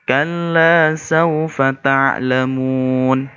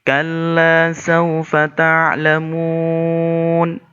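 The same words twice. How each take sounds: First: The final vowel is held for two beats. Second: The final vowel is held for four beats. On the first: "Contoh dua ketukan" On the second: "Sedangkan empat ketukan atau empat harokat"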